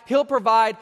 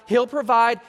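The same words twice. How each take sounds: The two takes are said the same way.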